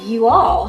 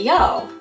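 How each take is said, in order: First: The phrase is said in a plain accent. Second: The phrase is said in a Southern accent. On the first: "And instead of saying you all" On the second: "Mama started talking Southern style when she got worried"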